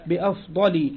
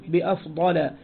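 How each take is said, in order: First: بأفضل said bi-afdali, final -li with kasra; kasra ending. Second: بأفضل said bi-afdala, final -la with fatha, no tanwin; fatha ending. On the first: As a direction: end بأفضل on a short kasra -li, the expected genitive. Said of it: "الأصل أن يقول بأفضل". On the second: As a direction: end بأفضل on a short open fatha -la. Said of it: "نحو بأفضل منه". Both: Shown as a demonstration.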